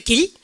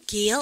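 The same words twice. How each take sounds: First: Said in the usual way. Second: "길" stretched into an anglicized "gi-eol"; wrong pronunciation. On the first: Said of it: "그냥 한국말 발음을 갖다 합시다". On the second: Shown as a demonstration. Teacher shows what not to do, anglicized drawn-out "길". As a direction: break "길" into two gliding vowels, wrongly. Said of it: "이러지 말고 그냥 한국말".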